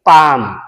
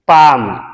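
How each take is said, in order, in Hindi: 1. "palm" शब्द में L silent है। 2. "palm" शब्द में L साइलेंट है।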